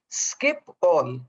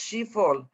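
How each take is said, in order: First: It begins with an 'sk' sound. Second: It begins with an 'sh' sound. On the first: The speaker calls it right. "but it's actually Skip All" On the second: The speaker calls it wrong. "of course, thought it was Schiphol"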